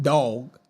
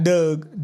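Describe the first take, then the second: First: "dog" with the open aw vowel, lower; standard pronunciation. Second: "Doug" with the Baltimore vowel, like the name Doug; Baltimore pronunciation. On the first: Contrasting for viewers the standard way to say "dog". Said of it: "Y'all say dog". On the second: Showing viewers how Baltimore says "Doug" for dog. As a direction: say "Doug" the Baltimore way, rhyming with rug. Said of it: "We say Doug". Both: Shown as a demonstration.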